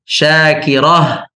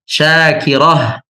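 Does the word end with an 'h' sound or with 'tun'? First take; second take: h; h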